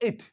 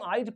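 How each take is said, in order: First: The vowel is a short 'ih' sound. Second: The vowel is a long 'eye' diphthong. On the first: The speaker calls it right. "Short आई है" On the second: The speaker calls it wrong. "इसको अगर हम आइट पढ़ें तो long आई हो जाएगा"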